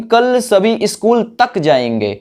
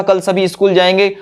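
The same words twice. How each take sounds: First: तक leaned on, higher; weight on तक; stress on तक. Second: Said in the usual way. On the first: Shown as a demonstration. Teacher shows students how तक adds stress, higher. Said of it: "तक word ने जोर दे दिया". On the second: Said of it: "ये भी हो सकता था".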